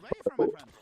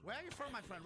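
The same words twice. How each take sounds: First: Yelled high and loud. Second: Said in the usual way. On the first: Real, not acted. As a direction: shout the question across the map. Asks, then repeats it loud.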